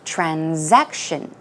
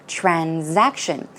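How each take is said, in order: First: It is said with a Z sound after 'tran'. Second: The same.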